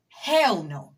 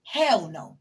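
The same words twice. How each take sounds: First: Hell no punched out louder, Hell hit hard; louder firm refusal; loud emphatic refusal. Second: Said in the usual way. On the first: Real, not acted. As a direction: slam the door on it, loud.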